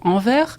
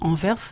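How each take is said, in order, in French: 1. On le dit comme les gens en France. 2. On le dit comme les francophones de Belgique. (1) "les Français de France euh, auront tendance à dire plutôt envers" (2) "les France, francophones de Belgique diront éventuellement envers"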